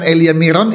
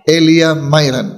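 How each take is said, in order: First: The name's first vowel sounds like 'ee'. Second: The name's first vowel sounds like 'eye'. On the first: The speaker calls it wrong. "itu udah jelas salah" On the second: The speaker calls it right. "Yang benar adalah Elia Myron"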